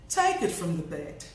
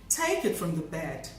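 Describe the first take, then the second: The two takes are said the same way.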